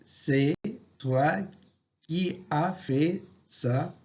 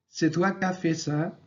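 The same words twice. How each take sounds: First: Every word is pronounced in full. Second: Some sounds are dropped, as in quick speech. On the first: This is the written form. "À l'écrit" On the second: This is the everyday spoken form. "À l'oral"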